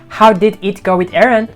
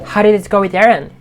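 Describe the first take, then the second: First: How and did are said as separate full words. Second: How and did blend into one short 'how'd'. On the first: The speaker calls it wrong. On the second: The speaker calls it right.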